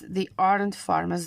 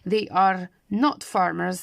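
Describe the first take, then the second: First: The verb and not are contracted into one word. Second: The verb and not are said as separate words.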